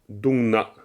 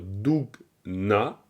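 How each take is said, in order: First: The k sound is not heard in the middle. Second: A clear k sound is heard in the middle. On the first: The speaker calls it right. "le cas ... va, dans ce cas-là, bloquer le son" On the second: The speaker calls it wrong. "On n'ira peut-être pas jusqu'à dire Dougna ... ça je pense pas"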